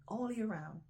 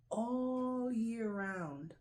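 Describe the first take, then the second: First: Said in the usual way. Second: All year round drawn out slowly, each word hit; stress all year round. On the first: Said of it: "repeating the phrase". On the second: Shown as a demonstration. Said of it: "stressing supermarket produce".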